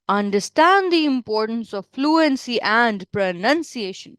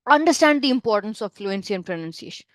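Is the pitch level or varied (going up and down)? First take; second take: varied; level. First: The pitch keeps moving up and down. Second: The pitch stays level and strong throughout. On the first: The speaker calls it wrong. "you don't have to do intonations a lot ... No, don't do that" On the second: The speaker calls it right. "Just keep a straight but a very strong tone"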